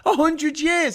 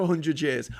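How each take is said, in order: First: High, loud disbelief; incredulous outburst. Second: Said in the usual way. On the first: Real, not acted. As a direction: throw it back, louder and much higher. Incredulous repeat of quoted claim.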